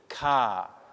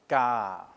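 First: The k is said with a puff of air. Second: The k is said without a puff of air. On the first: "feel the puff of air coming out" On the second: "has neither voiced nor aspirated"

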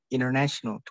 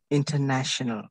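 First: The t after the n is dropped. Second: The t after the n is clearly pronounced. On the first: "T-nya jadi hilang" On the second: "kalau misalnya logat aksen British, itu nggak hilang"

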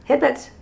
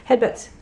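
The two takes are said the same way.

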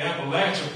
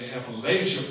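First: It is said the Southern way, like 'apple atcha'. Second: It is said the Northern way, the Yankee way. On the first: This is what locals call it. The speaker calls it right. "it is called the Appalachia Project" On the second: This is what outsiders call it. The speaker calls it wrong. "not the Appalachia Project, like we Yankees like to call it"

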